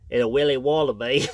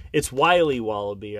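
First: Australian attempt like a stuffed-up Brit; bad Australian accent. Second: Said in the usual way. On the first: Shown as a demonstration. Dad poking fun at his own bad Australian accent. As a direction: fake Australian, sounding British with a cold. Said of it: "a British guy with a cold".

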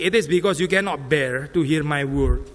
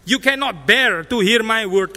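First: Said in the usual way. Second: Slow, louder, hit the word bear; stress on bear. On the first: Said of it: "Saya baca di dalam terjemahan bahasa Inggris". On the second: Shown as a demonstration. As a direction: bear drawn out slowly and leaned on. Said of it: "Bukan you do not understand".

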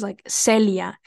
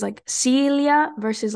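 First: Celia with the Spanish short e, "sel-ia"; Spanish name. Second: Celia with an English S and a long ee, higher and slow; anglicized name. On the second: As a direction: say Celia the American way, "see-lia". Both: Shown as a demonstration. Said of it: "the way the C sounds".

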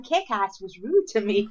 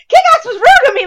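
First: "Kick-Ass was rude to me" said slowly and level; "Kick-Ass was rude to me" as a slow matter-of-fact statement; deadpan statement. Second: "Kick-Ass was rude to me" high and loud through laughter; "Kick-Ass was rude to me" cried out in laughing disbelief; laughing outburst. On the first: Announcing news to everyone. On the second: Retold outburst on realising. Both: Retold or imitated.

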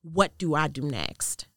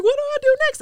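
First: Slow, measured question; calm earnest asking. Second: Very high, loud urgent question; mock panicked plea. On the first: Retold or imitated. Woman acknowledging God asks for guidance, calm and earnest. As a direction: ask God plainly and unhurriedly. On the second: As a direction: blurt it in a high acted panic. Panicked question when voice goes quiet.

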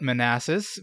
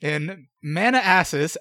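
First: "Manassas" as muh-NASS-us; standard pronunciation. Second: "Manassas" drawn out as MANNA-ASSES; deliberate mispronunciation. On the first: Shown as a demonstration. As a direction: say "Manassas" in one flow, middle syllable stressed. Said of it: "some people like to call it". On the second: Pretend. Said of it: "or as some people like to call it".

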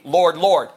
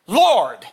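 First: Said in the usual way. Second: "Lord" as one long, heartfelt call; emphatic. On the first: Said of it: "because it's an emphasis". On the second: Acted. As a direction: LORD said once, drawn out and falling. Single emphatic word against doubled one.

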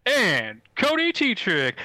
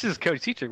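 First: Slow, loud, high ringmaster call. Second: Said in the usual way. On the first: Acted. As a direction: draw out the name grandly. Announcer introduces host.

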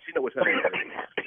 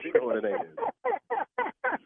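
First: Said in the usual way. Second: Higher, slow drawn-out words; drawn-out mock. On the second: Real, not acted. Husband ruefully repeating line about his wife, slow and teasing.

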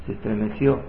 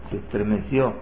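No difference in how they are said.

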